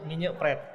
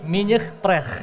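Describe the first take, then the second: First: It is said in a plain Indonesian way. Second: It is said with a French accent.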